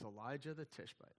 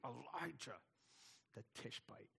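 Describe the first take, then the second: First: The name is said in a plain, even voice. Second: The name is forced out through gritted teeth. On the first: "I don't know if he said it that way" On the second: "probably with gritted teeth"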